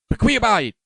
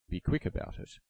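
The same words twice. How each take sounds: First: It is roared in a fierce, frenzied voice. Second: It is said in a plain, calm voice.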